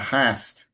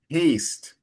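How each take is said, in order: First: The vowel is short, as in 'hat'. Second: The vowel is long, as in 'hay'. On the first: The speaker calls it wrong. "instead of ha- uh, hast" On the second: The speaker calls it right. "it's made haste"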